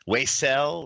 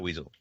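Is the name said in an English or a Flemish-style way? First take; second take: Flemish; English. First: The name is said with a Flemish-style pronunciation. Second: The name is said like the English word weasel. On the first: This is a guess at the name's real pronunciation. The speaker calls it right. "I'm sure it's probably something like Flemish, and it's Weisel" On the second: This is how the spelling reads in English. The speaker calls it wrong. "that's how you you'd you'd pronounce it in a dictionary"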